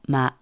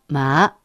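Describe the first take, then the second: First: The pitch dips low, then rises. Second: The pitch rises from mid to high. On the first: "三声" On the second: "二声"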